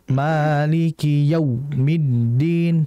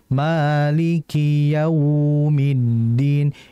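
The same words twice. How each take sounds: First: The au sound is jerked and cut off abruptly. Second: The au sound flows smoothly and is drawn out. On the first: The speaker calls it wrong. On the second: The speaker calls it right. "Harus dialirkan dengan lembut"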